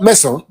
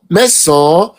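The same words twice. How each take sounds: First: The final vowel is cut short. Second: The final vowel is drawn out long. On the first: The speaker calls it wrong. "not meson" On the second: The speaker calls it right. "meson is almost you drag"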